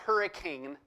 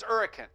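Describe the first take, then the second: First: It has the ordinary pronunciation of the common word. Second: It has the town's own local pronunciation. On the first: The speaker calls it wrong. "not hurricane" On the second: The speaker calls it right. "it's hurricane, you know, that's how you say it"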